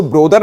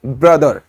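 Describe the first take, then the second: First: ब्रदर said as "bro-dar" with a full open o; the wrong way, ब्रदर as bro-dar; wrong pronunciation. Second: ब्रदर said as "bruh-dher" with a short neutral vowel; the right way, ब्रदर as bruh-dher; correct pronunciation. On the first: Teacher showing students the wrong way, ब्रदर as bro-dar. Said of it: "इसको ब्रदर नहीं बोलेंगे". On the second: Teacher giving students the right way, ब्रदर as bruh-dher. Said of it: "क्या होता है?". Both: Shown as a demonstration.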